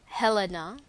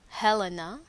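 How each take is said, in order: Both takes have the same delivery.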